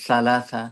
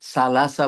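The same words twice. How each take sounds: First: সালাসা with the tongue out between the teeth, said slowly; সালাসা in careful Arabic, tongue between the teeth. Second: সালাসা with a plain Bengali s; সালাসা as Bengali speakers say it, plain s; সালাসা with an ordinary s. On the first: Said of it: "হবে সালাসা". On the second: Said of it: "সা রে আমরা সা বলি". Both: Shown as a demonstration.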